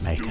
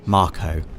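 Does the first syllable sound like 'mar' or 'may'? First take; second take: may; mar. First: The first vowel sounds like the one in 'may'. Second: The first vowel sounds like the one in 'car'. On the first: This is how the speaker habitually says it. "I've always I've always pronounced it Mako" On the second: This is the official pronunciation. "officially pronounced Marco"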